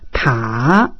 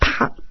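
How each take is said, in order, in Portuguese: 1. O tom desce e depois sobe um pouco. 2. O tom cai de alto para baixo. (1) "O terceiro desce e sobe um pouquinho" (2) "O quarto é descendente"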